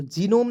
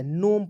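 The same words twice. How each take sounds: First: जीनोम with an opening "jee" syllable; wrong pronunciation. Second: नोम as one syllable, G silent; correct pronunciation. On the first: Teacher warning students off, misread जीनोम with sounded G. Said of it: "जीनोम नहीं पढ़ना है". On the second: Teacher correcting students' reading, silent-G नोम. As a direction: start नोम straight on N. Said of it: "नोम पढ़ते हैं". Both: Shown as a demonstration.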